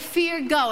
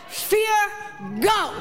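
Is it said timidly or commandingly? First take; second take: timidly; commandingly. First: It is said timidly, without force. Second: It is said firmly, as a command.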